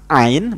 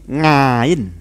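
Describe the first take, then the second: First: The word begins with a plain vowel sound. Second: The word begins with an 'ng' sound. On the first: This is the standard reading. "ada yang mengucapkan ain" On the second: This reflects a regional dialect. "ain menjadi ngain"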